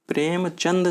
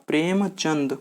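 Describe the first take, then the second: The two takes are said the same way.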